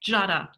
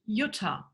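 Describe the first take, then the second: First: It is said with an American accent. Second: It is said with a German accent. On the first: The speaker calls it wrong. "try to pronounce it as an American" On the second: The speaker calls it right. "My name in German is pronounced Jutta"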